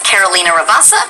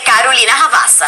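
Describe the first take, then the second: First: The name is said with an American accent. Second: The name is said with a Brazilian accent. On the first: The role is an American character. "if it's supposed to be kind of a an American character" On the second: The role is a Brazilian character. "if she's Brazilian"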